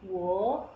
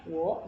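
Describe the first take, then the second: First: "Wo" drawn out, dipping then rising; original third tone. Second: "wo" short with a rising second tone. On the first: Teacher shows the starting tone, dipping third tone on "Wo". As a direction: give "Wo" the full third-tone dip, louder. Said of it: "jadinya wo". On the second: Teacher names the changed tone, rising second tone on "wo". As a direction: lift "wo" straight up. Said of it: "nada kedua". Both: Shown as a demonstration.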